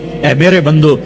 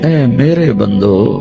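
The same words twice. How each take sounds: First: It is said in a plain, flat tone. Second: It is said in a warm, tender tone. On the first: The speaker calls it wrong. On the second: The speaker calls it right.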